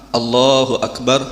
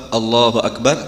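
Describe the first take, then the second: No difference in how they are said.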